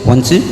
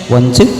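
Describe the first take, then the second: Both takes have the same delivery.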